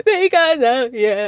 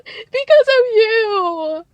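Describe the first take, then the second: First: Loud, slow mock accusation, less high; mocking Kristen. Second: Very high, loud, dragged-out whine; mocking Kristen. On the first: Host mimicking Kristen blaming Cece again, loud and slow. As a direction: repeat the jab, slower and emphatic. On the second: Host mimicking Kristen blaming Cece, high drawn-out whine. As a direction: stretch it into a shrill mock accusation. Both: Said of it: "Kristen says".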